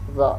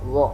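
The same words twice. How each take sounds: First: The sound is made with unrounded lips. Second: The sound is made with rounded lips. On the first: The speaker calls it right. "yang kita latih dha dha dha dha" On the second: The speaker calls it wrong. "tidak mengikutkan bibir itu membulat... Tidak seperti ini"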